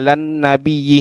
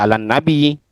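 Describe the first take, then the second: First: The word ends with a doubled '-iyyi' syllable. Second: The word ends in a plain 'i' sound. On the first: The reading continues without stopping. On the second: The reader stops at this word.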